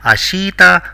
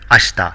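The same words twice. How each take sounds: First: The i after sh is clearly voiced. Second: The i after sh is nearly silent. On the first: The speaker calls it wrong. "It is not ashita" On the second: The speaker calls it right. "The I is virtually silent here"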